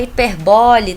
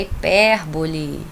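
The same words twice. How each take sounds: First: "hiperbole" stressed on BO, as hi-per-BÓ-le; loud wrong version of "hiperbole", accent on the third syllable; misplaced stress. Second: "hipérbole" stressed on PÉR, as hi-PÉR-bo-le; slow corrective "hipérbole", weight on PÉR. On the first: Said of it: "não é hiperbole, tá, gente?". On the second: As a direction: say "hipérbole" slowly, punching the second syllable. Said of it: "não é hiperbole". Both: Shown as a demonstration.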